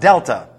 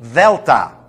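First: It begins with a hard d sound. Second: It begins with a soft th sound. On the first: The speaker calls it wrong. "It's not the D. It's not delta" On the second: The speaker calls it right. "It's a T-H-E sound, the. But you put your lips as if you were pronouncing a D"

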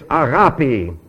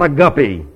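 First: The vowel after the g is an open 'ah'. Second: The vowel after the g is a short 'uh'. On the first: The speaker calls it right. "could you give me the correct pronunciation of this word? It's agapi" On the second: The speaker calls it wrong. "not a guppy"

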